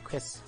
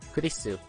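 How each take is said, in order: First: The name is said fast, squeezed into one syllable. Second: The name is said slowly with three full syllables.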